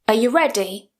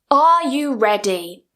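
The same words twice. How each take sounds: First: The word 'are' is weak, quick and reduced. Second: The word 'are' is full and emphasized. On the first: "It's much quicker and it sounds much more natural" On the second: "Here I'm really emphasizing it"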